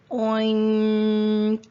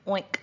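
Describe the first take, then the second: First: OINK with a long held NG before the K; Oink, slowly stretched, released on a final K; stretched-out sounds. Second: Said in the usual way. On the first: Shown as a demonstration. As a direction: draw Oink out loudly, humming the nasal sound. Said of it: "two sounds that are really close together". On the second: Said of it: "and then a".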